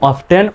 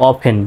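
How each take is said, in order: First: "often" with the t sounded, of-ten; T pronounced. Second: "often" with the t silent, off-en. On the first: Teacher shows learners the first option, "often" with a sounded t. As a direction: say "often" as "off-ten", t clearly heard. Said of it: "এটা দুইটা উচ্চারণ করতে পারবেন". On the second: Teacher shows learners the second option, "often" with silent t. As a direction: say "often" as "offen", dropping the t. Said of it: "অফেন বলে টি উচ্চারণটা silent হচ্ছে". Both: Shown as a demonstration.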